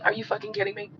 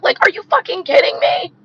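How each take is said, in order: First: Softer, deadpan disbelief with no heat; detached. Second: Higher, louder, incredulous blast; outraged. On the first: Shown as a demonstration. Showing viewers he's not emotionally in it, softer deadpan. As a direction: say it like you don't care. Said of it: "do I have a lot of feelings about it? Not really". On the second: Real, not acted. Ranting to viewers about the war, loud outraged disbelief. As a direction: really let the outrage out.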